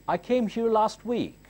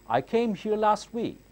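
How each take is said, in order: Both takes have the same delivery.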